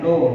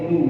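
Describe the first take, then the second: First: The vowel sounds like a rounded 'o'. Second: The vowel sounds like a rounded 'u'. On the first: The speaker calls it wrong. "hati-hati jangan no" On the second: The speaker calls it right. "tapi nu ya"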